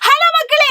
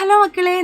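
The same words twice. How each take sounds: First: It is shouted, at high volume. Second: It is said quietly, at low volume. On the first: "ഞാൻ ആർത്ത് പറയാണ്, കുറച്ചുകൂടെ loud ആയിട്ടാണ്" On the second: "അത് loudness കുറച്ച് കുറവാണ്"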